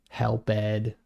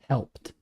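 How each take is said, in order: First: The ending is said as a separate syllable. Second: The ending joins the word in one syllable. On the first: The speaker calls it wrong. "he kept saying" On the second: The speaker calls it right. "We say it like that"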